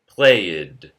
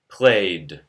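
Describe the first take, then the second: First: The -ed ending is an extra syllable. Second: The -ed ending adds no extra syllable. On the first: The speaker calls it wrong. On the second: The speaker calls it right.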